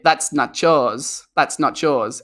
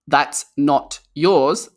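First: The words run together, sounding like 'nacho'. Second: The words are said separately and clearly. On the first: "if Americans speak quickly" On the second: "they want to say"

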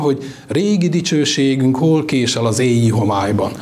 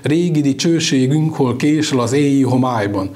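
First: Stresses fall on meaningful words while keeping rhythm. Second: Stresses fall on beats, including cső, günk, máj. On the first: The verse is recited joining meaning and rhythm. The speaker calls it right. "ez így szólna" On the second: The verse is scanned mechanically for its rhythm. The speaker calls it wrong. "De ez a megszólaltatás érvényesíti a ritmust, de rossz hangsúlyokat helyez el"

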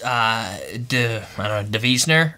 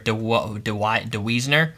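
First: The name is pronounced in a German way. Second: The name is pronounced in an English way. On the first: The speaker calls it right. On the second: The speaker calls it wrong.

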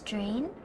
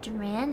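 First: The syllable sounds like 'drain', with one syllable. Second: The syllable sounds like 'duran', with two syllables. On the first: The speaker calls it right. "it's Drain" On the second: The speaker calls it wrong. "It's not Duran"

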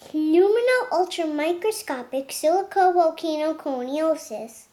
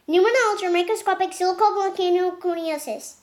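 First: The word is said at a normal speed. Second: The word is said as fast as possible. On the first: "we're gonna do regular speed pronunciation" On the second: "This is how fast I can do"

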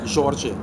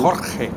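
First: The J is a soft, buzzing sound. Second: The J is a harsh, guttural sound. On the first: This is the Portuguese pronunciation. "En portugués es la... Janela, Jorge" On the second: This is the Spanish pronunciation. "En español, Jesús. Jorge. Jorge es gutural"

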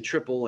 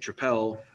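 First: It sounds like the ordinary English word triple. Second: It is said in a non-English, Belgian-style way. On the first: This is the speaker's own way of saying it. "I do say triple" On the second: This is a way the speaker does not use. "I don't say tripel"

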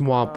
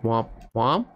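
First: The voice stays flat at the end. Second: The voice rises at the end.

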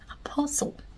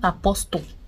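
First: No T sound is heard in the middle. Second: A T sound is heard in the middle. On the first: The speaker calls it right. "The T is silent" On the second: The speaker calls it wrong. "not apostle"

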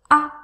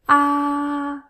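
First: It is light and short, without strong pitch. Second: The pitch stays high and level. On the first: "very light, very short" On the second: "The first tone is a high tone"

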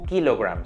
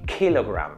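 First: The k is said without a puff of air. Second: The k is said with a puff of air. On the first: The speaker calls it wrong. "Yo no digo kilogram" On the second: The speaker calls it right. "Queda como una especie de aspiración ahí"

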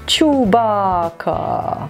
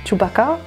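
First: The name is pronounced in an odd way. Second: The name is pronounced in a normal way. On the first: The speaker calls it wrong. "warum habe ich den so komisch ausgesprochen?" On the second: The speaker calls it right. "Ich weiß, dass der Chewbacca heißt"

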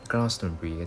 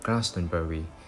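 First: The name is said with three syllables. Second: The name is said with four full syllables. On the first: The speaker calls it right. "他们只是读成是" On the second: The speaker calls it wrong. "不會將它讀成四個音節的，即是说他们不会读做"

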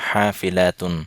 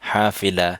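First: The word ends with the full 'atun' ending. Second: The word ends in a plain 'a' sound. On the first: "আর যদি আমরা হারাকাত উচ্চারণ করি তাহলে হবে" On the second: "যেহেতু শেষে গোলতা যার কারণে উচ্চারণটাই অনেকটা হার মতো হবে"

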